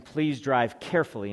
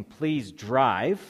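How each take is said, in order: First: "carefully" carries the weight, "drive" passed over; stress on CAREFULLY. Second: "drive" punched louder, left hanging; stress on DRIVE. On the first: Preacher showing the congregation the intended emphasis, stress on "carefully". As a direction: lean on "carefully" rather than "drive". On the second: Preacher showing the congregation the wrong emphasis, stress on "drive". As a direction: hit the word "drive" as the whole point. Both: Shown as a demonstration. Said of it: "the emphasis is not on the word drive".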